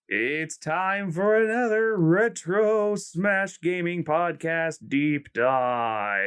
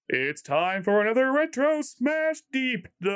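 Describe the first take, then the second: First: Slow booming intro announcer; fighting game announcer. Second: Higher, slow booming announcer; big announcer voice. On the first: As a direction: stretch out the show title. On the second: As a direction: announce the title like a ring call. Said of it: "get my big announcer voice". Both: Acted.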